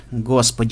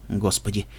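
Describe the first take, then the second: First: Mild exclamation while regaining composure; recovering from shock. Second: Low, soft, stunned exclamation; lost, stunned. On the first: Doctor seeing the wounded guest, quickly collecting himself. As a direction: exclaim briefly, pulling yourself together. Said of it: "мгновенно приходя в себя". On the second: Doctor on seeing the wound, lost and hushed. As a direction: let it out softly, at a loss. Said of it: "потерянно протянул тот". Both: A narrator's reading.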